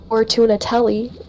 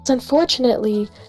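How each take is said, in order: First: The word is said as spelled, ending in 'telli'. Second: The word is said with its usual pronunciation. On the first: "if I pronounce it Fortunatelli" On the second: "makes it sound like there's a lot more consonants in there than there actually is"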